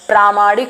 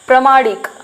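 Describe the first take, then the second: First: The first vowel is long. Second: The first vowel is short. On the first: The speaker calls it right. "प्र के ऊपर जो है वो आ की पाई आ जाएगी" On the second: The speaker calls it wrong. "प्रमाणिक नहीं होता है"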